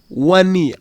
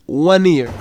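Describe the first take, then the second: The two takes are said the same way.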